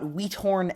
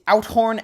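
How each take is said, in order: First: The name begins with a 'wee' sound. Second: The name begins with an 'ow' vowel. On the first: The speaker calls it wrong. "not Wheathorn" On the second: The speaker calls it right. "It's Outhorn"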